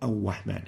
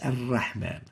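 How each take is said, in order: First: The r has a rounded w-like quality. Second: The r has no rounded w-like quality. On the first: The speaker calls it wrong. "pursing the lips ... a wow sort of a sound" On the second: The speaker calls it right.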